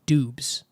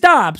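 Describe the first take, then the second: First: The vowel is a long 'oo' sound. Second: The vowel is a short 'o' sound. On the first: The spelling suggests this reading. The speaker calls it wrong. "So phonetically, that should be Doobs" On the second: This is how the name is actually said. The speaker calls it right. "So it is Dobbs"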